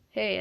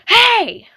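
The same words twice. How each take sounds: First: It is said quietly and calmly. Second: It is said loudly, like yelling.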